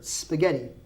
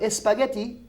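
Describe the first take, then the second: First: The word begins directly with an 's' sound. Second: The word begins with an added 'e' vowel sound. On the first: The speaker calls it right. "That's not a word" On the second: The speaker calls it wrong. "I am correcting everyone out there who says"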